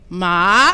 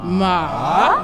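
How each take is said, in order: First: The pitch rises from mid to high. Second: The pitch dips down and then rises. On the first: "Second tone is a rising tone" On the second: "Third tone was a ... it looks like a little V"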